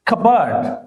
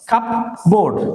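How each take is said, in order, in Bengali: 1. p নীরব থাকে এবং শেষের অংশটি হালকা করে বলা হয়। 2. p এবং পুরো 'board' উচ্চারণ করা হয়। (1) "শুদ্ধ উচ্চারণ হবে কাবার্ড" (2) "এটাকে বলা হয় কাপবোর্ড"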